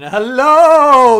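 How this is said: Hello is said grandly, like a formal announcement. The speaker calls it wrong. "do like a proclamation"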